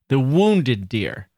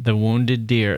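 First: The word wounded carries the emphasis. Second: The word deer carries the emphasis. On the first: "She'll say the wounded deer with an italicized wounded"

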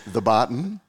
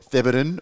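First: It sounds like 'the' followed by 'Barton'. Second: It sounds like one word, 'Theberton'. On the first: The speaker calls it wrong. "whether it's the Barton" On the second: The speaker calls it right. "or Theberton"

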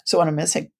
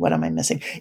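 First: It sounds open and inviting. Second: It sounds threatening and demanding.

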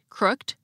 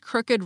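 First: The ed ending is only a final consonant. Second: The ed ending is its own extra syllable. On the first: "pronounced like most English words ending in ed" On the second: "had the same unusual pronunciation of the suffix ed"

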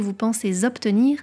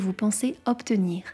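First: A z sound links pensez to obtenir. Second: No linking sound between pensez and obtenir. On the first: The speaker calls it wrong. "Je ne vous parlerai donc pas du contrat que" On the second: The speaker calls it right. "mais bien du contrat que"

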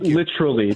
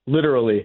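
First: The middle consonant sounds like ch. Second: The middle consonant is a clear t sound. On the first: The speaker calls it wrong. "Don't give me literally with the C-H" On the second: The speaker calls it right.

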